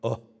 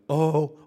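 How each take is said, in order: First: It is a short, caught breath of wonder. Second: It is a long, full breath of wonder.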